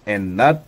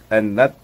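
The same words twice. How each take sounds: The two takes are said the same way.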